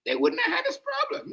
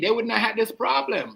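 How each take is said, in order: First: Way higher, a crying shout; mock wailing shout. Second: Said in the usual way. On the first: Repeating it to viewers as a mock crying wail. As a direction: howl it like a mock lament.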